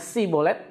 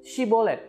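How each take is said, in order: First: The word begins with a plain s sound. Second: The word begins with an sh sound. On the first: The speaker belongs to the enemy group and is caught. The speaker calls it wrong. "nggak pakai Y" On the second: The speaker belongs to the group allowed to cross. The speaker calls it right. "pakai Y"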